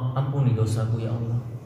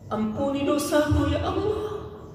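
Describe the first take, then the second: First: The prayer is said in a plain, flat tone. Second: The prayer is said with deep, pleading emotion. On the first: The person has no sins weighing on them. "intonasinya itu biasa aja" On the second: The person is remorseful over past sins. "Menjadi pemanis-pemanis munajat"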